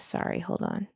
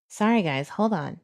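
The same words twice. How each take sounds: First: Whisper. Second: Said in the usual way. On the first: Real, not acted. Apologising to viewers mid-search.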